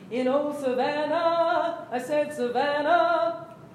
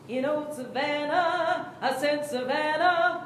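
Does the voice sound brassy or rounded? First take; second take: rounded; brassy. First: The words are placed back, sounding tall and rounded. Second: The words are placed forward, sounding bright and brassy. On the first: "which is the voice that she's having you use most of the time" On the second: "I've just changed where I'm pronouncing the words"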